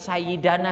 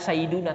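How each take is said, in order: First: The vowel after the d is a. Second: The vowel after the d is u. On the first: "Enggak mungkin sayyidana" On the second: "Enggak mungkin"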